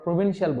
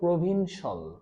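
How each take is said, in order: First: The ending is said with an extra 'ee' sound. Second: The ending is said as a short 'shal'. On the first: The speaker calls it wrong. "আমরা প্রভিনশিয়াল বলি" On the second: The speaker calls it right. "এটা আমরা কি বলবো"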